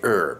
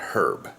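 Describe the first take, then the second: First: The word starts with a vowel sound. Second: The word starts with an h sound. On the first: The speaker calls it right. "Just like we say herb" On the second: The speaker calls it wrong. "not herb"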